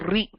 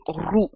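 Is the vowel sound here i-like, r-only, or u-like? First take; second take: i-like; u-like. First: It is said with an added i vowel, like ri. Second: It is said with rounded lips, like ru. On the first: "It's also not ri" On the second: "many people will say ru"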